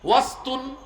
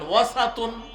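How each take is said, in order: First: The s has no vowel after it. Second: The s is followed by an a vowel. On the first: "সিনের মধ্যে সাকিন দিয়ে আপনি পড়তে পারেন" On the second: "সিনের মধ্যে জবর দিয়ে পড়তে পারেন"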